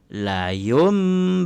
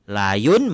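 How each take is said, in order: First: The word ends with an m sound. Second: The word ends with an n sound. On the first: "maka ditukar kepada bunyi mim" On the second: "nun mati bertemu dengan ba"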